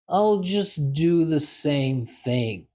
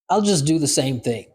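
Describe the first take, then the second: First: It is said slowly and deliberately. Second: It is said at a normal conversational speed. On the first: "Second time, slow" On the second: "First time, normal speed"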